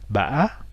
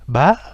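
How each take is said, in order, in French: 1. La syllabe se dit avec un accent circonflexe. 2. La syllabe se dit avec un accent aigu. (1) "avec un accent du type D" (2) "avec un accent aigu"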